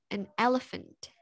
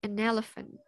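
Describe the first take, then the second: First: The two words are said separately. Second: The two words are joined smoothly together.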